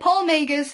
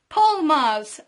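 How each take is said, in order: First: The surname is said as two syllables. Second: The surname is said as one syllable. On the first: The speaker calls it wrong. "I said it Paul Magers for a long time" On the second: The speaker calls it right. "I finally remember how to pronounce it"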